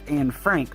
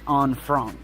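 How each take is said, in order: First: The name is said with an American pronunciation. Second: The name is said with its original pronunciation. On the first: The speaker calls it wrong. "it's not pronounced Anne Frank. That's the American pronunciation" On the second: The speaker calls it right. "It's Anne Frank"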